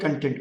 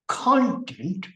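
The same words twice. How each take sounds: First: The stress is on the second syllable. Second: The stress is on the first syllable. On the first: It means satisfied. The speaker calls it wrong. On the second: It means subject matter. The speaker calls it right.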